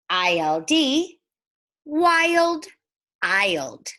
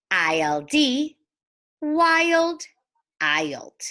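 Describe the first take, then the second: No difference in how they are said.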